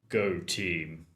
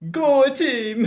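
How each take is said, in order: First: It is said in a gruff, edgy voice. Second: It is said with a put-on Italian accent.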